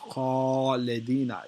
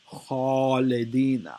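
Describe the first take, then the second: First: The first sound is heavy, with the mouth full. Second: The same.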